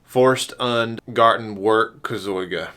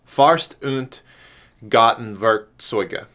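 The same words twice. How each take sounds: First: It is said with a Southern American accent. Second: It is said with a German-like accent. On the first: "if you're from the South" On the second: "the pronunciation for that is"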